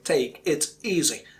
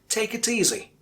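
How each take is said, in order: First: Each word is said separately, in isolation. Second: The words run together like one word. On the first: The speaker calls it wrong. "I'm not pronouncing" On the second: The speaker calls it right. "I say"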